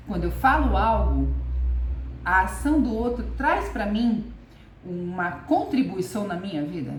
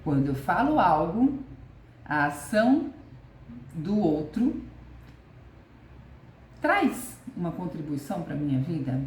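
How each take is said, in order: First: Falo and traz hit loud and falling; emphatic question. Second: Falo rising, then a pause after ação and after do outro; question with pauses. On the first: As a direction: lean hard on falo and traz, question posed firmly. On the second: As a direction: break it into pieces so each part sinks in. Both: Shown as a demonstration. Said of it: "Fica essa pergunta".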